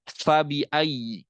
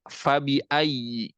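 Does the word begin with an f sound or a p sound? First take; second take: f sound; f sound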